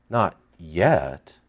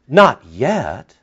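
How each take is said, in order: First: Quiet. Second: Said in the usual way. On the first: Shown as a demonstration.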